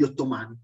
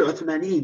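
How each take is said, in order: First: "ottomani" said the plain Italian way, o-to-MA-ni; "ottomani" as the ordinary Italian word; Italian form. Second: "Ottomaniyin" said the Arabic way, as o-to-ma-NI-yin; "Ottomaniyin" with the Arabic -iyin plural ending; Arabic plural form. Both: Shown as a demonstration. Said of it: "non so come si dicono".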